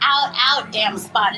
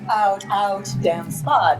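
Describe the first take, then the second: First: It is said in a light, high natural voice. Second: It is said in a deeper, heavier voice. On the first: It does not suit a tragic role. The speaker calls it wrong. "is going to sound ridiculous" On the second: It suits a tragic role. The speaker calls it right. "that sounds a lot more convincing"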